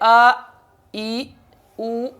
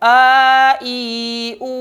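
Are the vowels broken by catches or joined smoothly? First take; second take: broken; smooth. First: Each vowel starts with an abrupt jerk or catch. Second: The vowels are said smoothly without abrupt catches. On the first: The speaker calls it wrong. "झटका।" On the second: The speaker calls it right. "ऐसे नहीं"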